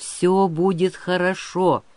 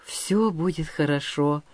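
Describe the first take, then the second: First: Slow, steady promise; promising. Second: Understated, softened relief; relieved. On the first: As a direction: reassure him without hurry. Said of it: "пообещал Выр". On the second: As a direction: repeat it as if reassured. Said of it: "с облегчением повторил воин". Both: A narrator's reading.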